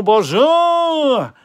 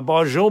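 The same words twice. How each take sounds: First: Bonjour sung out high, loud and long; hammed-up French bonjour. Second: Bonjour with a short rising French greeting; bonjour, playful fake French; mock French bonjour. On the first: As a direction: stretch bonjour into a big mock French greeting. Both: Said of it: "I cannot do French accent".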